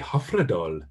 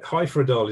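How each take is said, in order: First: The name is said in a Welsh-style way. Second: The name is said in an English-style way. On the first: "which sounds a bit sort of Welsh Indian" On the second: "is probably what I would have said just before I started conducting in Wales"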